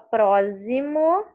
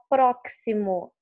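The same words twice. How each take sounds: First: The x is pronounced as a z sound. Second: The x is pronounced as a ks sound. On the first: "você não fala próximo, ela não tem o som de Z" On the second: "Você não fala próximo, ela não tem o som de que si, como de táxi"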